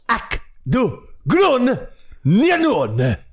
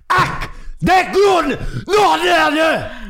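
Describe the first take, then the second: First: It is said in a calmer, less angry tone. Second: It is said in an angrier, harsher tone.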